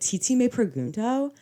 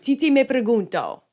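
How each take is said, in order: First: It is said with a strong American accent. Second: It is said with a more Spanish accent.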